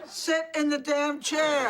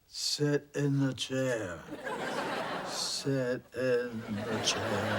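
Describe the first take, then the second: First: High, loud, fed-up command; exasperated shouted order. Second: Slow, drawn-out ghostly command; spooky ghost voice. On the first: Ghost losing patience over the chair, exasperated high shout. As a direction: drop the spookiness and yell the order. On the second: Ghost ordering a woman into her chair, slow spooky voice. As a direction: intone it slowly like a haunting ghost. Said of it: "I'm trying to sound like a ghost". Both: Acted.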